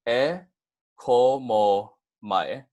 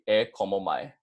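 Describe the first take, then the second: First: Each syllable is said slowly with pauses between. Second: The syllables run together without any pauses. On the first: "we're going to take it slow in pronunciation" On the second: "say it all together"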